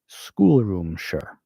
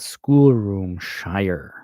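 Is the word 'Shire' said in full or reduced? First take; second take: reduced; full. First: 'Shire' is reduced and run into the word. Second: 'Shire' is said in full as a separate word. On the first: "if you came from England ... you probably would pronounce it" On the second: "you can hear in my accent, probably, that I am American"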